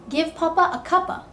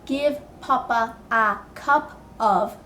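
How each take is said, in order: First: Cup and of blend together into cuppa. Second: Cup and of are said as separate words. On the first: The speaker calls it right. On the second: The speaker calls it wrong. "you're not going to say"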